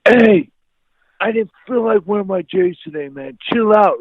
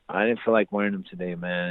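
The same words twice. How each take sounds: First: High, loud exploding retort; angry outburst. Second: Said in the usual way. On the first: Retold or imitated. Teen fed up with friend's sneaker questions, erupting. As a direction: re-enact erupting at a pestering friend. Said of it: "I exploded like a volcano". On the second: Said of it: "I just erupted".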